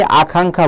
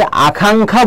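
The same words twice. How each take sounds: First: আকাঙ্ক্ষা as the second option, middle syllable swapped between কা and খা; alternative pronunciation. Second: আকাঙ্ক্ষা as the first option, middle syllable contrasted between কা and খা; pronunciation option. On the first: (আকাঙ্ক্ষা, কা-খা উচ্চারণের দ্বিতীয় বিকল্প) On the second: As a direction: say আকাঙ্ক্ষা as one of two rival pronunciations. (আকাঙ্ক্ষা, কা-খা উচ্চারণের প্রথম বিকল্প) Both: Shown as a demonstration. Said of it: "কা নাকি খা".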